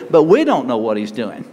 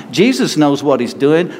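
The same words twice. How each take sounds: First: We pushed hard while the rest of the line drops low; stress on we. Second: Jesus lifted and stressed, rising at the end. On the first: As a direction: hit the word we in contrast. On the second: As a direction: lean on Jesus knows. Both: Shown as a demonstration.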